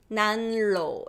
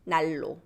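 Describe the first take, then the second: First: The n sound is kept before the r. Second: The n sound turns into an l sound. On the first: "It's hard to say" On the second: "It becomes"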